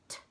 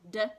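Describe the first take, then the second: First: The ending is a single voiceless t sound. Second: The ending is a single voiced d sound. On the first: "or it could make the T sound" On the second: "it could just make the D sound"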